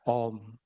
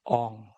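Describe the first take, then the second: First: The syllable ends with a closed m sound. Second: The syllable ends with a nasal ng sound. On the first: This is how it is said in India. "kalau di India" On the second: This is how it is said among Javanese Hindus.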